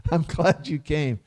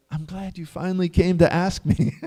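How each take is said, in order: First: Chuckling through the line; laughing. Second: Said in the usual way. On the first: Retold or imitated. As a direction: say it with a light laugh, quietly. Bhishma glad the Pandavas came.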